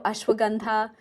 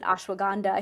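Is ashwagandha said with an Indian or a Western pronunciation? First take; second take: Indian; Western. First: The word has an Indian pronunciation. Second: The word has a Western pronunciation. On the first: "We know ashwagandha" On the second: "we pronounce it ashwagandha here in the West"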